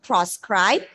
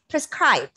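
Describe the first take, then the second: First: The first vowel is a full 'o' sound. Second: The first vowel is a weak schwa sound. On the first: The speaker calls it wrong. "Don't pronounce it proscribe. It's not proscribe" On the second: The speaker calls it right. "You have to just bring a schwa sound there"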